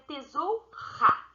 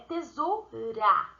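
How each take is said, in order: First: The R is a strong, throaty sound. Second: The R is a light, soft tap. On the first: The speaker calls it wrong. "usando o R forte, ficaria tesoura" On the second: The speaker calls it right. "ele tem o som fraco, o som brando"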